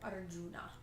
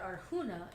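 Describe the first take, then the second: First: The name is pronounced without Spanish sounds. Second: The name is pronounced with Spanish sounds. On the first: The speaker calls it right. "instead of Arjuna" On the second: The speaker calls it wrong. "I still applied that everything has to be Spanish. And my stupid butt said Arjuna"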